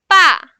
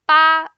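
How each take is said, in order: First: The pitch falls sharply from high to low. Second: The pitch stays high and level. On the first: It means that. "the fourth one" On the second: It means the number eight. "the first one"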